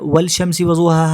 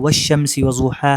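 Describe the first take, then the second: First: The L is pronounced clearly before the SH. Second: The L merges into a doubled SH sound. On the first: The speaker calls it wrong. "हम नहीं पढ़ते" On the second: The speaker calls it right. "हम पढ़ते हैं"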